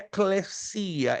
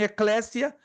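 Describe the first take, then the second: First: The word is said in its original Greek form. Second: The word is said in its Portuguese-adapted form. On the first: This is the original form in the source language. The speaker calls it right. "a pronúncia correta no grego koiné é eclesia" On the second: This is the common adapted local form. The speaker calls it wrong. "Muitos dizem eclésia, né? É a forma aportuguesada"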